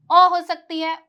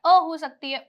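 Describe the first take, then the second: First: अ said as a rounded "aw", as in "on"; open, loud "aw" sound on अ; open O vowel. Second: अ said as an unrounded "uh", as in "son"; short "uh" sound on अ; neutral UH vowel. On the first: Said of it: "सबसे पहले ओ की sound है ओ". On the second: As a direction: keep अ a plain "uh", like "other". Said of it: "अ की sound आ रही है". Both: Shown as a demonstration.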